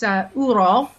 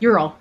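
First: The word is pronounced the Slavic way. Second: The word is pronounced the American way. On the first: "if you're a Slav, it's Ural" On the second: "Or if you're U.S., you know, Ural"

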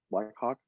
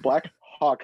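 First: It is said at a quick pace. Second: It is said slowly and carefully.

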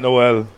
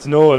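First: The name does not rhyme with Cole. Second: The name rhymes with Cole. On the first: The speaker calls it wrong. "not Noel" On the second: The speaker calls it right. "it's Noel"

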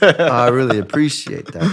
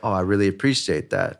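First: It is said in an emotional, shaky voice. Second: It is said in a cool, calm voice.

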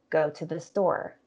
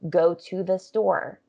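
First: It is said fast with reduced words. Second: It is said carefully with full words.

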